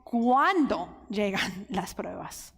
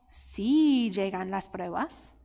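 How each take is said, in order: First: "Cuando" stressed and drawn out with a small laugh; slow, weighty "Cuando llegan las pruebas". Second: "Sí" lifted and slowed as the wrong reading; stress on sí. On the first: Preacher correcting the wording, "Cuando" stressed slowly. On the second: Preacher showing the wrong wording, "Sí" stressed slowly. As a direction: lean slowly on "Sí llegan las pruebas". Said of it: "Mira cómo no está diciendo". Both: Shown as a demonstration.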